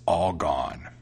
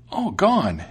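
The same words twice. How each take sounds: First: Low, slow cat reply; matter-of-fact cat. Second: High, loud startled mouse; exclaiming mouse. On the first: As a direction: draw the name out in a low voice. Cat answers, set against mouse. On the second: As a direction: cry the name back in astonishment. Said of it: "exclaimed the mouse". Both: A narrator's reading.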